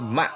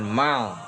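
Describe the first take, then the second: First: The syllable ends with a glottal stop. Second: The syllable ends with an L sound. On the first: The speaker calls it right. "dibaca dengan hamzah sukun jadi ma" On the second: The speaker calls it wrong. "bukan mal"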